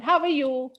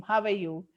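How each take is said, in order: First: Higher, louder friendly question; baby elephant calling to his new friend; calf calling out. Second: The well answering in an echo. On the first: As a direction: call down the well eagerly. Elephant calls into the well. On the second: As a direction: repeat it back faintly like an echo. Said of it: "the same voice came". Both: Acted.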